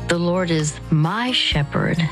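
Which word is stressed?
my. The stress is on the word my.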